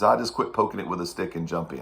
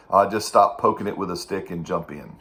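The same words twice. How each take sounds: First: Hint of a Persian accent; light Persian accent retelling; Mohammed's Persian accent. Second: Put-on thick Persian accent; lightly imitated Persian accent; Mohammed's Persian accent. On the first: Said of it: "in a very thick Persian accent". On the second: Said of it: "used to say in a very thick Persian accent".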